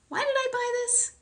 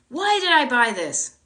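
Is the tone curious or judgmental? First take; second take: curious; judgmental. First: It sounds curious and open. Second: It sounds judgmental and self-critical.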